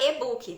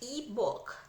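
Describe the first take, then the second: First: It is said with a Brazilian Portuguese pronunciation. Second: It is said with an English long i sound. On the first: "a forma brasileirada" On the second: "em inglês eu sei e-book. Então o i com o i longo"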